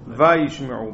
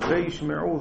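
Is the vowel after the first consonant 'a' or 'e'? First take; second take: a; e. First: The first vowel is an open 'a' sound. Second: The first vowel is a short 'e' sound. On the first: The verb refers to the past. "בפתח" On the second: The verb only connects and refers to the future. "זו וווה החיבור"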